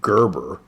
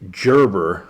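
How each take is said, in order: First: The opening does not sound like 'gerbil'. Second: The opening sounds like 'gerbil'. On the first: Other people say it this way. "some of y'all pronounce it Gerber" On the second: The speaker says it this way. "I pronounce it Gerber, like the gerbil"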